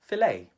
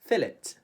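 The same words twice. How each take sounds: First: It is said with a Filipino English accent. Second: It is said with a British English accent. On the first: "In the Philippines, we would say fillet" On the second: "the Brits pronounce it a little bit differently"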